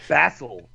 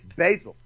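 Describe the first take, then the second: First: BASIL with the A of "cat"; non-American basil. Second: BASIL as BAY-zil; American basil. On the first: Retold or imitated. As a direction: say "basil" as BAZ-il. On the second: Shown as a demonstration. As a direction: say "basil" with a long "ay". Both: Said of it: "it's basil".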